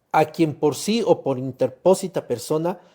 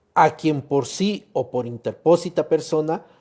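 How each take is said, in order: No difference in how they are said.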